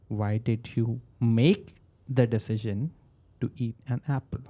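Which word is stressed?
make. The word "make" carries the strongest stress. It questions whether the decision should have been made. "when I say make, then should I not have?"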